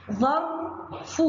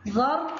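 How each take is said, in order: First: ظرف said slowly, split into syllables. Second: Said in the usual way. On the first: Shown as a demonstration. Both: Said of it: "الكلمة الأولى".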